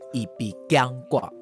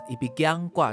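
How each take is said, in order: First: The syllable bi is said clearly on its own. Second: The early syllables are run together smoothly. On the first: I myself am unable to move. "必要被念出来" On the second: Someone else will not let me leave. "B 跟G 念粘在一起的一笔僵挂"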